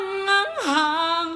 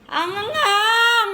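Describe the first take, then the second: First: Sung, singsong wail. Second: High, drawn-out cry of pain; mouth burning from spicy food. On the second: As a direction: wail at the burning heat. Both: Real, not acted. Mouth on fire.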